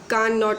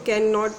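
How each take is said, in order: First: The vowel is a long open 'ah' sound. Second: The vowel is the short 'a' of 'cat'. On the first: The speaker calls it wrong. "कान not नहीं पढ़ेंगे" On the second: The speaker calls it right. "तोड़कर पढ़ेंगे तो कैन not पढ़ेंगे"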